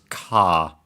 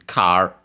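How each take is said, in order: First: It ends in a long A with no R. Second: It is said with an English R sound. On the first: "which becomes ka" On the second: "is car"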